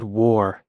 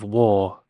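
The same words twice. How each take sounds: First: "war" with a sounded R; imitated mispronunciation. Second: "war" without a sounded R; corrected British pronunciation. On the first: Reactor quoting the actress's slip, "war" with a hard final R. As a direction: say "war" drawn out, ending in an American R. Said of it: "she said war". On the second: Shown as a demonstration. Reactor showing what the actress should say, "war" as British "waw". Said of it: "instead of war".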